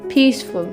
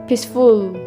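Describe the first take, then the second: First: The stress is on the first syllable. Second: The stress is on the second syllable.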